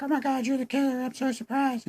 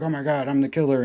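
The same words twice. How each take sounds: First: Squeaky high falsetto, hammed up; mock surprised woman. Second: Said in the usual way. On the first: Reviewer mocks Emma facing the revealed killer, falsetto fake surprise. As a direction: parody a girl's shock in thin falsetto. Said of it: "And she's like". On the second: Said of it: "he's like".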